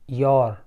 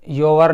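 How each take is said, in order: First: It is said as one syllable, yor. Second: It is said as two syllables, yo-wer. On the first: The speaker calls it right. "योर। आर बहुत हल्का सा बोला जाता है" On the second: The speaker calls it wrong. "योवर नहीं"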